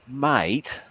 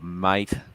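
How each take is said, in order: First: It is said in an exasperated, questioning tone. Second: It is said in a doubtful, disbelieving tone. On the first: What are you doing? "that means what the hell are you doing" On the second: I don't believe you. "that means I don't believe you"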